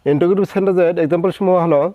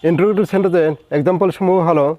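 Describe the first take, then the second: No difference in how they are said.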